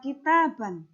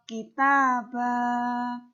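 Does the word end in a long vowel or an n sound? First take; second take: n sound; long vowel. First: The word ends with an n sound. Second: The word ends with a long a vowel. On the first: The speaker calls it wrong. "maka dia tidak dibaca kitaban" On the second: The speaker calls it right. "dibaca kitabah. Fathatain hilang, diganti fathah biasa dan dipanjangkan dua harokat"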